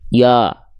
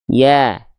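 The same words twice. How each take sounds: First: The vowel sounds thick and rounded, mouth simply open. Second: The vowel sounds thin and bright, with a slight smile. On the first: The speaker calls it wrong. "Kalau buka mulut saja, khawatirnya pelafalannya seperti ini" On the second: The speaker calls it right. "hurufnya huruf tipis, maka bukan dibaca ya, tapi ya"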